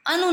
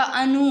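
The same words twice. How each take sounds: First: "अनु" with short u; rejected pronunciation. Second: "अनु" with long final uu; corrected pronunciation. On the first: Teacher showing the error, "अनु" with short u. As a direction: clip the final u of "अनु". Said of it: "अनु नहीं होता". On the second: Teacher giving the correction, "अनु" with long uu. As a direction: draw out the uu in "अनु". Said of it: "अनु होता है". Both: Shown as a demonstration.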